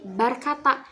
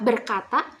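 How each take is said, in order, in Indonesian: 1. Vokal pertama adalah bunyi a. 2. Vokal pertama adalah bunyi e. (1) "pengucapan e dalam bahasa Indonesia diucapkan a" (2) "pengucapan suara e fathah a seperti kalimat berkata"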